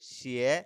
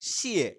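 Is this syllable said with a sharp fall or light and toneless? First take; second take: toneless; sharp fall. First: It is light and short with no tone. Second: It starts loud and high, then falls sharply. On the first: "এটাতে কোনো টোন থাকবে না" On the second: "fourth টোনে আছে ... লাউডলি শুরু করব, একদম ভলিউম মানে লাউড কমিয়ে তারপরে শেষ করব"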